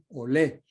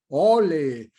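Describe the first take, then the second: First: The stress is on the last syllable. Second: The stress is on the first syllable. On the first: This is how it is said in Spain. "se acentúa la palabra en olé, en la última E" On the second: This is how it is said in Mexico. "acentuado en la O"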